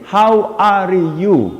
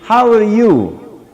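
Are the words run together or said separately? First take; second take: separately; run together. First: Each word is said separately, one at a time. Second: The three words run together as one phrase. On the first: The speaker calls it wrong. "You don't need to pronounce the three words one at a time" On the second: The speaker calls it right. "You can pronounce it with one pause"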